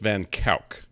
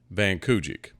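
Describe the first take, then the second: First: The surname is pronounced the Dutch way. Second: The surname is pronounced the English way. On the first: The speaker calls it right. "That is not how they pronounce it. It's" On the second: The speaker calls it wrong. "to me, in English, this is"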